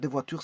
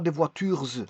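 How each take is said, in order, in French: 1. Le S final de voitures est muet. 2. Le S final de voitures se prononce. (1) "c'est un S muet" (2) "on dit pas des voitures"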